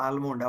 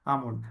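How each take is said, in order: First: આલમોન્ડ with the L sounded before M; mispronounced L. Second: આમોન્ડ, the A running straight into M; silent L. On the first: Teacher showing the mistake children make, L pronounced. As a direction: say આલમોન્ડ, wrongly voicing the written L. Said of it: "બાળક શું ઉચ્ચાર કરતો". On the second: Teacher repeating the correct almond for students, silent L. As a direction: say આમોન્ડ without any L sound. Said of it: "શું બોલાશે?". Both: Shown as a demonstration.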